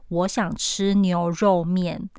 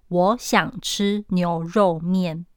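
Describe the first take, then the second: The two takes are said the same way.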